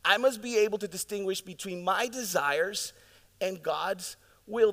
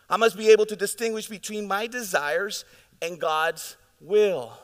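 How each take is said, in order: First: Measured restatement, easing off the force; slowed repeat. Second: Louder, driving the point home; preached hard the first time; emphatic. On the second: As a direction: hammer the line out with force. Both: Real, not acted. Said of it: "This is so important, church".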